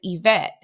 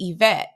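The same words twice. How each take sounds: First: The stress is on the second syllable. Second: The same.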